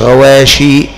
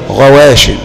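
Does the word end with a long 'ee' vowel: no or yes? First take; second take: yes; no. First: The word ends with a final long 'ee' vowel. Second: The word ends without a final long 'ee' vowel. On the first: The speaker calls it wrong. "مش غواشي" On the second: The speaker calls it right. "غواش، مش غواشي"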